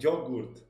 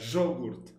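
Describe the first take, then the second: First: The Y sounds like a y, not Argentine. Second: The Y sounds like sh, in Argentine style.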